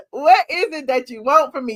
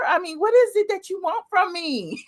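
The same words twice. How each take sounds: First: Said in the usual way. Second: High, mock-tearful plea; hammed-up helpless begging; mock pleading. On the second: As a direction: plead in a put-on whiny cry. Mock pleading, then laughs.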